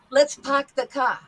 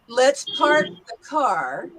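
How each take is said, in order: First: R-less "park" and "car", New York style; New York accent. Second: Said in the usual way. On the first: Shown as a demonstration. Teacher contrasts it for students, New York accent. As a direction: say it like a New Yorker, dropping r's. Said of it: "go back to the New York accent". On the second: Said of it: "Do you hear the difference".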